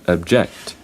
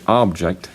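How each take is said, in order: First: The stress is on the second syllable. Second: The stress is on the first syllable. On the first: It is a verb meaning to oppose. "that's a verb" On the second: It is a noun meaning a thing. "that's a noun"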